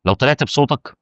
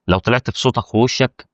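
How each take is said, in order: First: Said in the usual way. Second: Slow, with ووشك lifted and rising at the end; stress on ووشك. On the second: Shown as a demonstration. To a YouTuber, adding ووشك as the key point: slow stressed ووشك. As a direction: lean on the word ووشك, slowing down.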